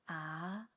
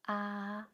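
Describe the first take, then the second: First: The pitch rises from middle to high. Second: The pitch stays high and level.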